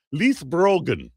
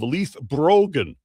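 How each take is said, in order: First: A light, self-mocking stab at an Irish accent on "Leith Brogan"; terrible Irish accent. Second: Said in the usual way. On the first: Shown as a demonstration. Host tries the Irish term for viewers, in a mock Irish accent. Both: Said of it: "this terrible Irish accent you're getting from me".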